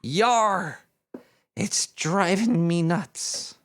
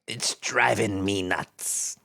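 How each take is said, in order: First: Slow pirate growl of a punchline, yar stretched; slow hammed-up pirate punchline. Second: Lower, slow, mock-pirate mutter of the punchline; low slow pirate echo to himself. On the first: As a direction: land the joke like a hammy pirate. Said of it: "The pirate looks at the shrink and says". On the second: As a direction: savour the joke in a low slow growl.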